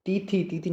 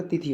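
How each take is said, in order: First: तिथि with long vowels, "tee-thee"; wrong pronunciation. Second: तिथि with short vowels, "ti-thi"; correct pronunciation. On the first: Teacher shows the mistake, तिथि drawn out as "tee-thee". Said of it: "नहीं होता". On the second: Teacher gives the right form, तिथि as short "ti-thi". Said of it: "होती". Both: Shown as a demonstration.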